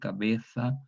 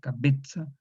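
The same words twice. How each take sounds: First: The z is said as a th sound. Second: The z is said as a ts sound. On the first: This is how people in Spain say it today. "la fricativa interdental sorda, pronunciado como los españoles" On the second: This is the old medieval pronunciation. "se pronunciaba no de manera fricativa ... sino de manera oclusiva"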